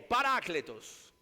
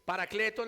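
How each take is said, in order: First: The word is said the original Greek way. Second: The word is said the usual Spanish way. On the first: This is the original form of the name. "Cuando usted pronuncia en griego" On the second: This is how local speakers commonly say it. "Paracletos le decimos nosotros"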